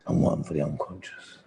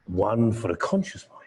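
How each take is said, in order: First: Low hypnotic murmur; deep unconscious voice. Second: Said in the usual way. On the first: Shown as a demonstration. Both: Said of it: "He had at least two voices".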